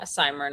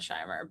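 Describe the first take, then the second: First: The s and h are pronounced as separate sounds. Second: The s and h merge into one sh sound. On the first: The speaker calls it right. "you like separate it between the S and the H" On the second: The speaker calls it wrong. "anything but the sh. There's no sh in there"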